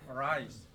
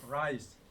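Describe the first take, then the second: Both takes have the same delivery.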